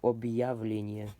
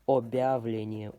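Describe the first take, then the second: First: A y glide separates the b from the vowel. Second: The b runs straight into the vowel, no glide. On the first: The speaker calls it right. "With it, it's supposed to sound like объявление. You got that y somewhere in between there" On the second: The speaker calls it wrong. "Without the hard sign, it would sound like"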